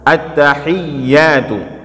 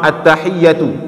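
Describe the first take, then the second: First: The vowel is said long. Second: The vowel is said short. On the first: It means many greetings. "maka dibaca ianya pan, panjang" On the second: It means a single greeting. "jadi ianya nggak panjang"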